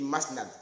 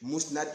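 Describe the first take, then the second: First: The first syllable has the vowel 'a'. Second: The first syllable has the vowel 'u'. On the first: The speaker calls it wrong. "j'ai dit Masnad" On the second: The speaker calls it right. "Au lieu de Mousnad"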